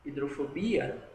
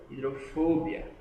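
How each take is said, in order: First: Hidrofobia with stress on BI; Portuguese stress. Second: Hidrofobia with stress on FO; Spanish stress. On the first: Teacher comparing the languages, Hidrofobia stressed on BI. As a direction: say hi-dro-fo-BI-a for Hidrofobia. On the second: Teacher comparing the languages, hidrofobia stressed on FO. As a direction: say hi-dro-FO-bia for hidrofobia, punching FO. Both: Shown as a demonstration. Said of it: "a tonicidade tá sendo diferente".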